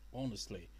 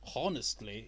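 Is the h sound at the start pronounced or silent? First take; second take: silent; pronounced. First: The word begins with no h sound. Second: The word begins with an audible h sound. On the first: The speaker calls it right. "The H is silent" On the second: The speaker calls it wrong. "It's not like host is honestly"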